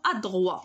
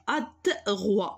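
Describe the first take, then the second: First: Said in the usual way. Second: ادغوا slowly sounded out in parts; ادغوا broken up, slow and deliberate; slow dictation. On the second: Shown as a demonstration. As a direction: draw out ادغوا as if writing it. Teacher sounds out word while writing.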